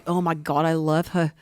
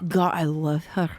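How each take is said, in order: First: Low, lovesick first try at Beck; a lightly voiced smitten ogre; swooning Beck. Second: Slower, lower, dreamier lovesick ogre; a lightly hammed-up smitten ogre; deeper swooning Beck. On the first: Retelling the book, a mild lovesick ogre. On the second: Redoing the line, a slower lovesick ogre. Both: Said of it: "let me do that again".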